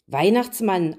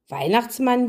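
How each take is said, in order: First: Mildly taken-aback answer; baffled. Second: Higher-pitched, puzzled echo; pondering repetition. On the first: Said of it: "antwortete die Königin verblüfft". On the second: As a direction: repeat the unfamiliar name, lightly voiced. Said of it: "wiederholte er". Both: A narrator's reading.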